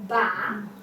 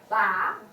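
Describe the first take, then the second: No difference in how they are said.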